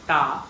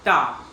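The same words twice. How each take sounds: First: "ta" with the tongue between the teeth; dental ta. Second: "ta" hard, as in tiger; retroflex ta. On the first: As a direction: dental "ta" demonstrated. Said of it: "your tongue is in between the teeth". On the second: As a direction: say "ta" like the start of tiger, firm and loud. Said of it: "it's pronounced as". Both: Shown as a demonstration.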